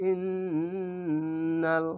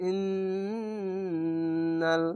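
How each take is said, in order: No difference in how they are said.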